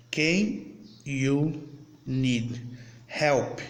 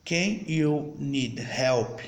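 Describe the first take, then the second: First: Each word said apart with pauses; word by word demo. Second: Whole question said slowly in one go; slow full demo sentence. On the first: Teacher to students, slowly separating each English word. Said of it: "Aí, vamos lá". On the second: Teacher to students, slow but connected English question. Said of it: "olha como eu falei diferente". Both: Shown as a demonstration.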